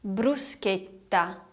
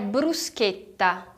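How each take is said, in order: The two takes are said the same way.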